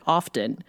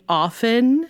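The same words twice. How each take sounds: First: The T sound in the middle is pronounced. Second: The T sound in the middle is silent. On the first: The speaker calls it wrong. "I pronounce it often" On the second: The speaker calls it right. "do you mean often?"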